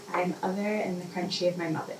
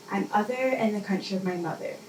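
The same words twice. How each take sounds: The two takes are said the same way.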